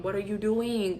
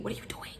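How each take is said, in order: First: Said in the usual way. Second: Whispered. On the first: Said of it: "repeated then whispered". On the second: Shown as a demonstration. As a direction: repeat it softer, in a whisper. Repeated, now whispered.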